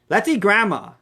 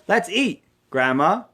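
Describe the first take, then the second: First: The words run together with no pause. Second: There is a pause before the last word. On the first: Grandma is the food being eaten. "let's eat up grandma" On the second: Grandma is being invited to eat. "Grandma, come, let's eat"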